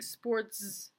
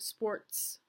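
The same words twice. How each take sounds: First: The final sound is a buzzing z. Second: The final sound is a hissing s. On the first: The speaker calls it wrong. "she pronounces that S with the alveolar voiced fricative Z" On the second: The speaker calls it right. "instead of sports"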